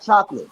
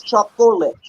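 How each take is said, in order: First: "chocolate" run into two syllables, CHOK-lit; casual pronunciation. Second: "chocolate" in three full syllables, CHOK-o-late; careful pronunciation. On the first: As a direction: say "chocolate" short, dropping the middle vowel. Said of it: "It's not chocolate". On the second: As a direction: sound out every syllable of "chocolate". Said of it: "it's incorrect". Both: Shown as a demonstration.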